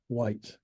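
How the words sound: The word ends cleanly on the t sound. The speaker calls it right.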